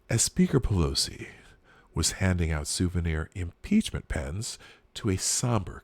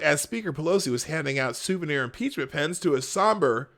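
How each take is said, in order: First: It is read in a grave, somber tone. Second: It is read in a light, ordinary tone. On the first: The speaker calls it right. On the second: The speaker calls it wrong.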